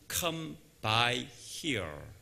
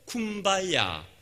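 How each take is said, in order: First: It is three separate English words. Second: It is blended into one word, kumbaya.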